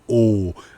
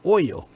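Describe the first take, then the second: First: It is said in a southern accent. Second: It is said in a northern accent. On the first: "Down south, you might say oh" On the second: "Up north, you might say oil"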